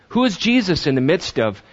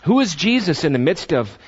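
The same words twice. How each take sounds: The two takes are said the same way.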